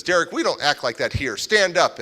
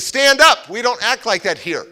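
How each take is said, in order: First: Firm mother. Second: Sharp command. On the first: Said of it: "my foster mom says". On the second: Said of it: "she goes". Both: Retold or imitated.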